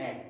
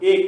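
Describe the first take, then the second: First: এক said the right way, as we always say it; correct pronunciation. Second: এক said the wrong way we never use; wrong pronunciation. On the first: Teacher gives students the right number word, model pronunciation. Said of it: "আমরা বলি". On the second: Teacher shows students how not to say it, mock mistake. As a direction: show the incorrect এক. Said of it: "আমরা কখনোই বলি না". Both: Shown as a demonstration.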